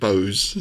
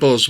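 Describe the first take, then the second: First: The name rhymes with 'nose'. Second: The name rhymes with 'does'. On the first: This is how the name was originally said. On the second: This is how the name is usually said now.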